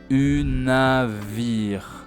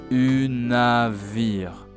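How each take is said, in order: First: The middle consonant is a V sound. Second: The middle consonant is a V sound.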